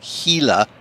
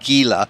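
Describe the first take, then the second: First: The name is said the way outsiders say it. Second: The name is said the way locals say it. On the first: The speaker calls it wrong. "they can't even say the fucking words right" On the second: The speaker calls it right. "instead of"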